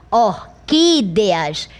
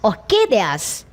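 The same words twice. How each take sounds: First: "orquídeas" slowly, with a long stressed "quí"; correct stress. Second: "orquídeas" slowly, stress wrongly moved off "quí"; misplaced stress. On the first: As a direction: lean hard on the "quí" of "orquídeas". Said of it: "é a que você imprimiu maior intensidade". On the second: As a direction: mispronounce "orquídeas" on purpose, shifting the weight away from its "quí". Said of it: "deslocasse essa sílaba tônica para a primeira". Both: Shown as a demonstration.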